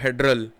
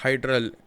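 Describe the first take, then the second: First: The first vowel sounds like 'eh'. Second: The first vowel sounds like 'eye'. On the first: The speaker calls it right. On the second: The speaker calls it wrong.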